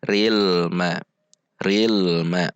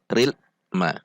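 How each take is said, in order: First: "ril ma" connected with a briefly flowing l; bainiyah l. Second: "ril" stopped abruptly, pause, "ma"; jerked l. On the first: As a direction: let the l of "ril" flow into "ma". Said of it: "Namun sifatnya bainiyah". ("ril ma" dengan lam bainiyah) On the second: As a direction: cut "ril" dead before "ma". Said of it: "Tidak dihentak juga". ("ril ma" dihentak) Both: Shown as a demonstration.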